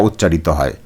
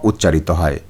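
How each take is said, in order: The two takes are said the same way.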